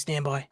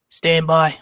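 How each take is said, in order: First: Said in the usual way. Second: Reggie from Boston voice; Boston accent. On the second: Pretend. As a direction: stand by in a thick Boston accent. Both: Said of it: "My Reggie from Boston voice".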